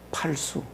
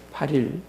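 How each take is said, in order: First: The second syllable is pronounced 'su'. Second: The second syllable is pronounced 'il'. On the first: The speaker calls it wrong. "사람들이 보면 팔수라고 많이 읽어요" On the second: The speaker calls it right. "팔 일입니다"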